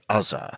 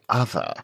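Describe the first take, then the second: First: The middle consonant is not a 'th' sound. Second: The middle consonant is a 'th' sound. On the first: The speaker calls it wrong. "We do not say" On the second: The speaker calls it right. "we say other. The letters T and H. The sound is th"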